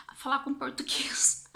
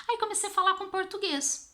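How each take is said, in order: First: Hushed, excited whisper to herself; whispered realization. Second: High-pitched, excited retelling; excited discovery. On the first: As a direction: whisper it like a sudden idea dawning. Retold sudden idea, whispered. (sussurro de quem teve uma ideia) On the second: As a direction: lift the voice high as the idea pays off. (voz aguda e empolgada de descoberta) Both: Retold or imitated.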